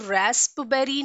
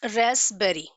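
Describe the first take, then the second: First: The p sound is pronounced in the middle. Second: The p sound is silent in the middle. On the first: The speaker calls it wrong. "हम इसको रेस्पबेरी नहीं pronounce करते" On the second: The speaker calls it right. "We pronounce it as रेस्पबेरी"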